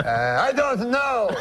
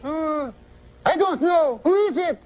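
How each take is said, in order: First: Slow, high French-Canadian bafflement; Jean-Luc's French-Canadian accent. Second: Puzzled falsetto wife; high woman's voice. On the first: Uncle gives up on cabbie's riddle, high French-Canadian accent. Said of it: "That's how he talks". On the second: Wife gives up on uncle's riddle, high falsetto woman's voice. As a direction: go way up into comic falsetto. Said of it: "high voice". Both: Acted.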